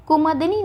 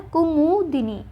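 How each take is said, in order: First: कुमुदिनी as "kumadini"; कुमुदिनी, short a after m; wrong form shown. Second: कुमुदिनी slowly as ku-mū-di-nī; slow कुमुदिनी with u after m; correct form shown. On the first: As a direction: say कुमुदिनी with "ma" in the middle. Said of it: "न होता है". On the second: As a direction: draw out "mu" in कुमुदिनी. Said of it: "क्या होता है?". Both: Shown as a demonstration.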